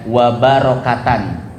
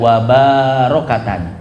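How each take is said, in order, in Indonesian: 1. Vokal setelah b pendek. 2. Vokal setelah b dipanjangkan. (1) "baknya pendek ya"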